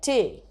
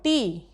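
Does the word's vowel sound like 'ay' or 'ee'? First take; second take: ay; ee. First: The vowel sounds like 'ay'. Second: The vowel sounds like 'ee'. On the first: This is the older pronunciation that rhymes with away. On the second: This is the modern pronunciation.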